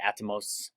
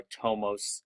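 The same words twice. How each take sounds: First: First "atomos" as AT-uh-mose; own pronunciation "atomos". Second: Second "atomos" as uh-TOE-mose; alternative pronunciation "atomos". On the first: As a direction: stress the opening of "atomos": AT-uh-mose. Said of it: "I just say". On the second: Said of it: "I just say atomos or atomos". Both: Shown as a demonstration.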